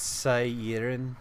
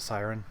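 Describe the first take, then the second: First: The name is given its Welsh pronunciation. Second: The name is given an English pronunciation. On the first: This is the technically correct form of the name. "Technically, it's Siren, and it's Welsh" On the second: This is a simpler form that is acceptable to use. "I'm fine with Siren"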